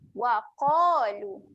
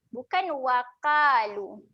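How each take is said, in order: First: The q sound is heavy and thick. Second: The q sound is light and thin. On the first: The speaker calls it right. "Bezakan bunyi huruf tebal eh" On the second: The speaker calls it wrong.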